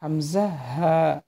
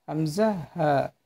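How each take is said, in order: First: হামজা হা said slowly from the throat; teacher modelling হামজা হা slowly; slow letter demo. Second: Said in the usual way. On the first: Shown as a demonstration. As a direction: draw out হামজা হা for learners. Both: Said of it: "এই হরফটি উচ্চারণ করবেন কই থেকে জানেন?".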